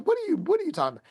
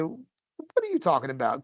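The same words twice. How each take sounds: First: High, rapid, stammered disbelief; blown away. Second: Mildly puzzled retold question. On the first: Retold or imitated. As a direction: imitate her stunned, rushed question. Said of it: "Kinda, like, blown". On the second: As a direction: ask it as if confused, lightly acted. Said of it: "puzzled, and".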